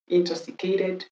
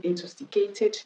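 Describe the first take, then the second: First: American "Intoxicated" with a soft flapped t; "Intoxicated", US-style tapped final syllable; American pronunciation. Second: British "intoxicated" with a crisp t; "intoxicated", UK-style sharp t in the last syllable; British pronunciation. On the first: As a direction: say "Intoxicated" ending in -kay-did. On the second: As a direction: say "intoxicated" ending in a clear -kay-tid. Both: Shown as a demonstration.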